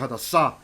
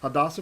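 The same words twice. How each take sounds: First: It is said with the text's marked stress. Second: It is said with Ashkenazi Yiddish stress. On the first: This is the name as written in the text. "Her name's actually Hadassah, right? You see the you can see the accent mark here" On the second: This is how the community usually says it.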